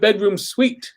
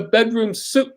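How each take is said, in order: First: The last word sounds like 'sweet'. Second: The last word sounds like 'suit'. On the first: This is the standard way others say it. "They don't call it bedroom suite" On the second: This is how the locals say it. "It's a bedroom suit"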